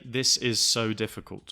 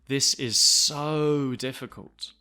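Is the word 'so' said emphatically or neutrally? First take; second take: neutrally; emphatically. First: The word 'so' is said in a flat, neutral tone. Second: The word 'so' is said with strong emphasis. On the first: The speaker calls it wrong. "You don't want to say this is so difficult with a, uh, a neutral tone" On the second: The speaker calls it right. "you need to use a very emphatic tone"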